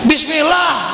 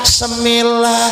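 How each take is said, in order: First: The word starts with a 'bis' sound. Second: The word starts with a 'se' sound. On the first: The speaker calls it right. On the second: The speaker calls it wrong. "ngapa jadi Semillah?"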